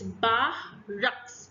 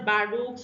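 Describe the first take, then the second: First: The second syllable is emphasized with a breathy h. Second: The second syllable has no added breathy emphasis. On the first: The speaker calls it right. "we are using the word H to emphasize on rux" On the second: The speaker calls it wrong. "it's not barracks"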